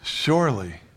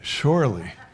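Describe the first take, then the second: No difference in how they are said.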